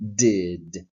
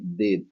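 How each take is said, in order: First: The first d has a small burst of air. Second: The first d has no clear burst of air. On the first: The speaker calls it right. "it has a little explosion at the beginning" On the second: The speaker calls it wrong. "you don't say did"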